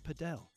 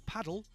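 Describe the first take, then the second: First: Padel said as puh-DELL; stress on second syllable. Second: Said in the usual way. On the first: Shown as a demonstration. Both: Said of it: "is called padel".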